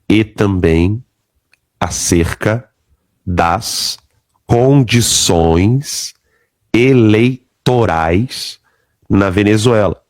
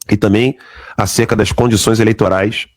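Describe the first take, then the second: First: It is read very slowly. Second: It is read at a normal speed.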